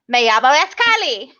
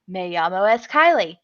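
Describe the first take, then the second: First: It is said with a put-on Spanish accent. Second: It is said with a plain English accent. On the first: "like have an accent, a Spanish accent" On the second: "I don't say it right"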